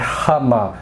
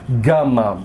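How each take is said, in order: First: It begins with a throaty R-like sound. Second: It begins with a hard G sound. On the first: The speaker calls it right. "Ele tem som de R" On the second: The speaker calls it wrong. "em português a gente fala de maneira errônea"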